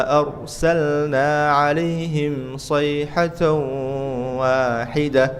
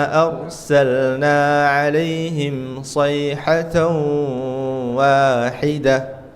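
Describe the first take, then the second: Both takes have the same delivery.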